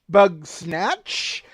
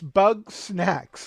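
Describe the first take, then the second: First: The name ends with a ch sound. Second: The name ends with a ks sound. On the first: The speaker calls it wrong. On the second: The speaker calls it right. "it's bug snacks, like snacks that are made out of bugs"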